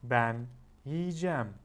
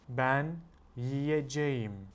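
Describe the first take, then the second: First: The verb is shortened, dropping several middle sounds. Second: Every syllable of the verb is pronounced fully. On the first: "when you're speaking, you will say" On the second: "This is how you will write it"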